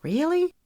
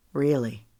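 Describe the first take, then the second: First: Sharp high rising really; questioning really. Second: Sincere really. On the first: She asks him if he means it, high rising disbelief. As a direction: ask it in disbelief, pitch leaping up. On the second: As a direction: answer firmly to reassure her. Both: Acted. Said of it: "searching his face".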